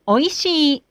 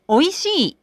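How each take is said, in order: First: The pitch stays level with no drop. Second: The pitch rises and then drops inside the word. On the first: "When we use flat style" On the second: "When we use 起伏 style"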